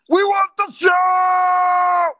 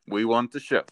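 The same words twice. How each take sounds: First: It is said loudly, with energy and conviction. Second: It is said plainly, without much energy.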